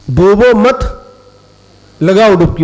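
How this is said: The pause comes after the second word.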